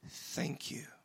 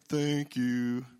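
First: It sounds warm and heartfelt. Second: It sounds reluctant and grudging. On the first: The thanks is truly meant. The speaker calls it right. "from a pure heart" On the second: The thanks is forced, not meant. The speaker calls it wrong. "Not like that"

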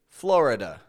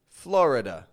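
First: The vowel after the r is pronounced. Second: The same.

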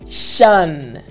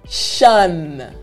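No difference in how they are said.

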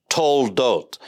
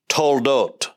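No difference in how they are said.

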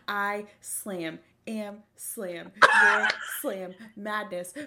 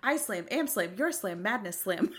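First: The phrases are separated by pauses. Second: The phrases run together without pauses.

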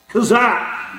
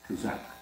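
First: It is said strongly, with force. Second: It is said weakly, without force.

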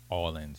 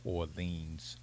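First: It is said with a Louisiana accent. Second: It is said with a general accent. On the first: "Notice I had a little Louisiana accent" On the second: "instead of"

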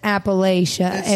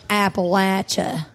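First: It is said the northern US way. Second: It is said the southern US way. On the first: The speaker is from the north. "If you're from north of the Mason-Dixon" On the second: The speaker is from the south. "If you're from south"

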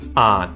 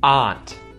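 First: The final T is muted and silent. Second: The final T is clearly pronounced. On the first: "I'm going to say the word with the muted T" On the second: "I'm going to say the word with the T"

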